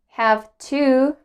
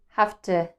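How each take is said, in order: First: Both words are said fully and separately. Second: The words are reduced and run together. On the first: "Instead of saying have to" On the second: "try to say have to"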